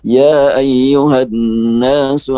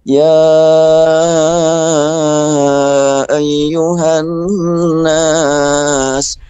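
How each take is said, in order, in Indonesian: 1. Seruan itu dibaca pendek, vokalnya tidak dipanjangkan. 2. Seruan itu dibaca panjang, vokalnya dipanjangkan. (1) "Itu kalau dibaca pendek" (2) "panggil yang panjang"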